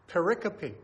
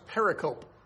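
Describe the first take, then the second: First: The word ends with a pronounced final 'ee' sound. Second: The word ends in a silent e, like 'cope'. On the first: The speaker calls it right. "the correct pronunciation is pericope" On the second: The speaker calls it wrong. "You would think it's pronounced pericope"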